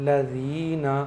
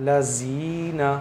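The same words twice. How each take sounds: No difference in how they are said.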